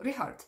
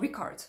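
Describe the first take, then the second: First: The ch is a soft breathy fricative. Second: The ch is a hard K sound. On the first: The speaker calls it right. "it's not a K sound" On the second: The speaker calls it wrong. "it's not Ricard"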